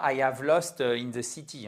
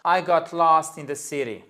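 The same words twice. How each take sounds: First: Learner's English with a French accent; caricatured French accent. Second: American-style English accent. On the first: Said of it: "mon accent français". (accent français un peu caricatural) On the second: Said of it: "en perspective". (accent américain, un peu plus fort) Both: Shown as a demonstration.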